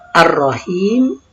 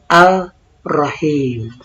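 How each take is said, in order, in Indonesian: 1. Huruf l menyatu dengan r, terdengar 'ar'. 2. Huruf l tetap dibaca, terdengar 'al'. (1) "Ar-Rahim dibaca Ar-Rahim" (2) "bukan Al-Rahim"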